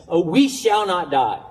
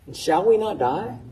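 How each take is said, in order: First: "Oh, we shall not die" with a falling, declarative tune; "we shall not die" ending down, a confession; as a statement. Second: "And shall we not die?" rising at the end into a real question; a doubting question, pitch rising on "die". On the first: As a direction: read it as a flat statement of faith. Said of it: "That's your English translation". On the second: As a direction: ask it, let "die" lift up. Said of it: "Habakkuk is, is questioning". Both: Shown as a demonstration.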